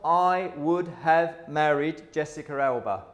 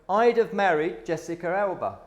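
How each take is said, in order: First: The word would is said in full. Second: The word would is contracted to I'd. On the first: The speaker calls it wrong. "not I would have married Jessica Alba" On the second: The speaker calls it right. "So I'd have married Jessica Alba"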